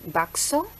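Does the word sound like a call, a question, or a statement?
question. It has a questioning tune. It asks whether there is any bakso. "menafsirkan bahwa saya menanyakan tentang keberadaan bakso"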